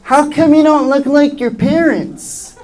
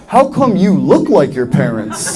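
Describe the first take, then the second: First: Put-on high, slow child's question; high-pitched mock schoolfriend voice; puzzled kid friend. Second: Slow puzzled retort with YOU punched; confused comeback. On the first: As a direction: imitate a kid asking, high and drawn out. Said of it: "my friends were like". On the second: Retold or imitated. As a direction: stress on YOU, slowly drawn out in own lower voice. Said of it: "that really confused me 'cause I was like".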